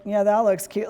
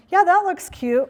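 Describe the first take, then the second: First: The same words but mocking; backhanded praise with a chuckle; sarcastic compliment. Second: Said high and bright, meaning it; a genuine compliment, pitched up and louder; honest cheerful praise; bright sincere compliment. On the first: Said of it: "Or you'd be like". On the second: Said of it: "it could be a simple statement like". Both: Shown as a demonstration.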